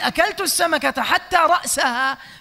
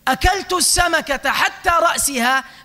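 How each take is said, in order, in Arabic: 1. الكلمة الأخيرة فيها 'a' قبل -ha. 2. الكلمة الأخيرة فيها 'i' قبل -ha. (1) "بالنصب" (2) "تكون حتى بمعنى إلى"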